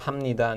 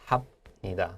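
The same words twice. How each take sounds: First: The consonant before 니다 is a nasal m. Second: The consonant before 니다 is a stopped b. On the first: The speaker calls it right. "So it sounds more like" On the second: The speaker calls it wrong. "not so much"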